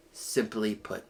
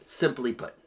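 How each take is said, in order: First: "Simply put" said again much softer; quiet emphatic echo; softer repeat. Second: Said in the usual way. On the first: Shown as a demonstration. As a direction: let the repeat drop, almost to yourself.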